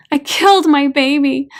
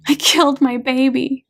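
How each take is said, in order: First: Higher, louder wail of guilt; a weeping mother's anguished repeat; louder sobbing cry. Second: Tearful confession. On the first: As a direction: cry it out in despair. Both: A narrator's reading. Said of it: "gasps and sobs".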